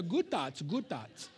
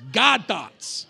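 First: Lightly put-on mock accent on "Good thoughts", soft and trailing. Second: "God thoughts" said loud with a laugh, "God" punched; stressed God. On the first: Pastor mocking Eastern meditation with a little accent. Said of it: "Do you like my little accent there?". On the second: Pastor correcting the crowd, laughing, stressing God. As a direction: hit "God" hard and proud, with a laugh. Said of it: "It's different". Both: Shown as a demonstration.

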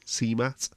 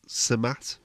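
First: "[name]" with a long ee, SEE-mat; alternative pronunciation. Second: "[name]" with a short, neutral first vowel, suh-MAT; unsure pronunciation. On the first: Host trying an artist's name another way, "[name]" said as SEE-mat. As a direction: slowly try "[name]" as "see-mat", questioning. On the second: Host unsure of an artist's name, "[name]" said as suh-MAT. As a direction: slowly try "[name]" as "suh-mat", questioning. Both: Shown as a demonstration. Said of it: "not sure that's how you pronounce it".

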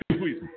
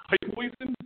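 First: Said in the usual way. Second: Hefeweizen with a hammed-up German accent, rising at the end; a playful try at saying Hefeweizen the German way; mock German accent. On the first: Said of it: "Did I say that right?". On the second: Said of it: "How was my German accent?".

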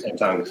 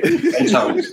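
First: Said in the usual way. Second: Tongues said high through laughter; laughing. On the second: Real, not acted. Repeating the punchline about tongues, laughing and high. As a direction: let it burst up on and tongues.

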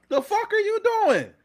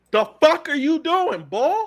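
First: Even higher, squeaking with disbelief; exasperated. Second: Exasperated. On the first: Fan repeating the outraged question, even higher and squeakier. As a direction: let the voice crack up high in outrage. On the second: Fan reacting to the Eagles trade, high exasperated cry. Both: Real, not acted.

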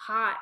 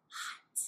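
First: Hot said loud and firm; loud firm hot to stop a toddler; sharp warning. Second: Hushed, voiceless hot; whispered hot for a toddler. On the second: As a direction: barely breathe the word hot. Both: Shown as a demonstration. Mother repeating warning.

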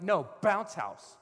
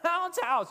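First: Slow, loud, higher mock refusal; stubborn insistence. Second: Very high, loud mock squeal; exasperated childish yell. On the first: You arguing back at God, stubborn. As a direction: dig in on BOUNCE HOUSE. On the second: You out-shouting God's offer, childish yell. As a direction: shout BOUNCE HOUSE like a kid in a tantrum. Same argument, escalated outburst.

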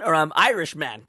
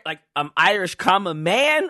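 First: "I'm Irish man" with no break, "Irish man" as one word; run together as Irishman. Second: "Irish, comma, man" with a clear break before "man"; pause before man. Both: Shown as a demonstration.

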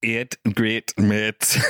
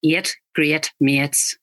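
First: Slow Northern Irish repeat; Northern Irish copy. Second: Slow Northern Irish, eight as eet. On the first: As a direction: copy the teacher slowly. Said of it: "repeating the teacher". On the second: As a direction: model the Northern Irish vowels slowly. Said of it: "Northern Irish". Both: Shown as a demonstration.

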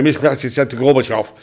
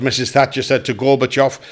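First: Fast and gabbled, "Missus Thatcher said to Gorbachev" thrown away; rushed delivery. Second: Each word given its full weight, "Missus Thatcher said to Gorbachev" landed clearly; clear and deliberate. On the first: Comic showing the wrong way to deliver a line, rushed and mumbled. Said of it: "Don't go on and say". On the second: Comic showing the right way to land a feed line, said clearly. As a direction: spell out "Missus Thatcher said to Gorbachev" so the back row hears it. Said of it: "Get your lips and that round that". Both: Shown as a demonstration.

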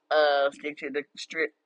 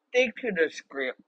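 First: "strip" said slowly in place of script; slow stumble, "stick to the strip"; slip of the tongue. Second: "script" said carefully with a clear k and r; slow, deliberate "Stick to the script"; corrected show name. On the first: Host fumbling her show name, slow slip on "strip". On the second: Host fixing her show name, slow and careful. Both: Real, not acted. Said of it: "it sounds like I said strip".

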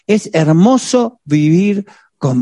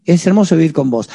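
First: Slow, tender declaration while squeezing her tight. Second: Said in the usual way. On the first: Pretend. Husband holding his wife close, slow and tender. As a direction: savor each word like a loving embrace.

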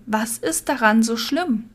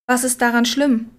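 First: "schlimm" drawn out slowly at a falling end; slow, insistent question, lingering on "schlimm"; insistent repeat. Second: Said in the usual way. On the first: A narrator's reading. Repeating an unanswered question to Nico, slow and insistent on "schlimm". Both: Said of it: "Ich kann mich nur wiederholen".

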